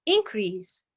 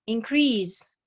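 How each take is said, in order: First: The stress is on the first syllable. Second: The stress is on the second syllable. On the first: It is a noun. "nous avons l'accentuation sur la première syllabe" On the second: It is a verb. "j'ai l'accentuation sur la deuxième syllabe"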